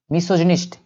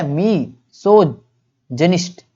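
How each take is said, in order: First: Said in the usual way. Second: मीसोजिनिस्ट slowly, mee - soj - jinist; syllable-by-syllable. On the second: Shown as a demonstration. Teacher sounds out a new word, मीसोजिनिस्ट slowly in pieces. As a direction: stretch and separate the parts of मीसोजिनिस्ट. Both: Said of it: "क्या है बोलेंगे?".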